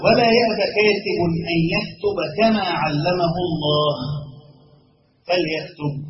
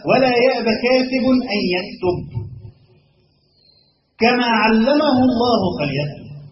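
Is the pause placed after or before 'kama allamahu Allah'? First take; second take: after; before. First: The pause falls after 'kama allamahu Allah'. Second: The pause falls before 'kama allamahu Allah'. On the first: The phrase 'as God taught him' goes with 'that he write'. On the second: The phrase 'as God taught him' goes with 'so let him write'.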